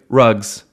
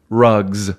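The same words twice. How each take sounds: First: The final sound is a hissing S. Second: The final sound is a buzzing Z. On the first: "versus what commonly people will say" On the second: "When they come after what we call a voiced sound"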